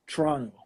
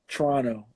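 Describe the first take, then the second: First: It is said with a Canadian pronunciation. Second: It is said with a Canadian pronunciation.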